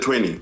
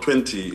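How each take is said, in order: First: It is said with an American English pronunciation. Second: It is said with a Kenyan English pronunciation. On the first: "they twang their English" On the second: "when they talk about twenty in Kenya"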